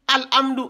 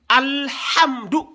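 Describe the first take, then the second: First: It is said with no h sound. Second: It has a throaty, strangled h sound. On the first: The speaker calls it wrong. "il y a certains qui disent" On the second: The speaker calls it right. "c'est le ha c'est comme si on vous a étranglé"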